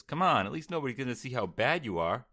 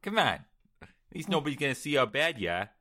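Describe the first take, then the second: First: Light Brooklyn twang; a touch of a Brooklyn accent. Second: Put-on high, loud Boston accent; hammed-up Boston accent. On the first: Acted. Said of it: "your little Brooklyn twang on there". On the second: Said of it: "Boston [name]".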